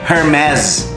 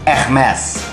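First: It starts with an H and sounds like 'her mess'. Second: It starts without an H and has a soft R. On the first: "Sa mga Amerikano naman, ... ang pronunciation daw nito eh Hermes. Parang kalat ng babae. That's not my mess, that's Hermes" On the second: "ang tamang pronunciation daw nito, sabi ng mga French ha ... hindi mo raw bibigkasin yung H tsaka R"

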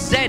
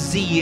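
First: The letter is said as 'zed'. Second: The letter is said as 'zee'. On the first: This is the British way of saying it. "it's Zed in the UK" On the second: This is the American way of saying it. "Z in the US"

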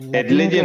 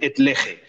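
First: Lege is said in ecclesiastical Latin style. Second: Lege is said in Spanish Latin style. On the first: It is the pronunciation used for Mass. "eso es el eclesiástico, eso es para la misa" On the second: It is how a Spaniard says it. "Yo soy español y yo digo tole et lege"

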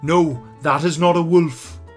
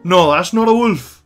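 First: The Irish accent is carefully softened and clear. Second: The Irish accent is thick and natural. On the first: The speaker is toning down the accent for a wide audience. "you can hear how much he is being very careful with his accent" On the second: The speaker talks in a natural, unadjusted way. "as opposed to"

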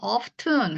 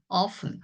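First: The t sound in the middle is pronounced. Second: The t sound in the middle is silent. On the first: The speaker calls it wrong. "이 단어도 often 하고 읽으시면 안 돼요" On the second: The speaker calls it right. "그냥 often이에요"

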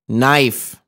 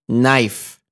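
Both takes have the same delivery.

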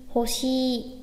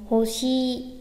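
Both takes have the same delivery.

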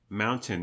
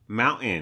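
First: The middle t is clearly pronounced. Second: The middle t is dropped. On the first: This is the British way of saying it. The speaker calls it right. "he pronounces mountain" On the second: This is the American way of saying it. The speaker calls it wrong. "Dropping the T"

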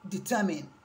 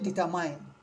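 First: The last syllable is a short, weak 'min'. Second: The last syllable sounds like the word 'mine'. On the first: The speaker calls it right. "So here it becomes determine" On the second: The speaker calls it wrong. "why this one is mine? Here you cannot say determine"

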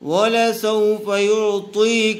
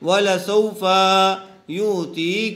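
First: The vowel after the f is said short. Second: The vowel after the f is drawn out long. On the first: The speaker calls it right. "اس کو جلدی پڑھیں، تھوڑا بھی نہ کھینچیں" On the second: The speaker calls it wrong. "بچے عموماً اس کو کھینچ دیتے ہیں، وَلَسَوْفَ يُعْطِيكَ ایسے پڑھ دیتے ہیں، وہ غلط ہے"

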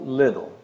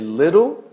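First: The word is said quickly, with a reduced ending. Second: The word is said carefully, with a full ending.

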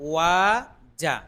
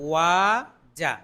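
Both takes have the same delivery.

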